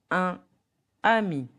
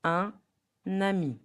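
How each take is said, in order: First: UN AMI in two separate words, N not sounded; no liaison. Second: UN AMI linked with N, un-nami; N sound opening "ami" after "un"; liaison. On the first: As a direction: say "un ami" without linking. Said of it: "So the real pronunciation". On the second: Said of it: "So the real pronunciation, the right one". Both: Shown as a demonstration.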